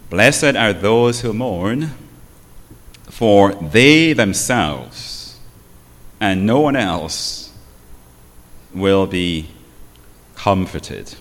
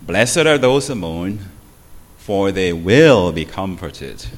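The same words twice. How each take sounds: First: "they" hit hard, slow and loud; stress on they. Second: "will" leaned on as if the verb mattered most; wrong emphasis on will. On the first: Showing the congregation the right stress, "they" slow and loud. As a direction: lean on "they" and linger there. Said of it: "the emphasis is on the word they". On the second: Reading the verse to the congregation with "will" stressed. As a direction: stress on "will", not on "they". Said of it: "this is how they read it". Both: Shown as a demonstration.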